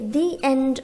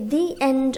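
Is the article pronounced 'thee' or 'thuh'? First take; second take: thee; thee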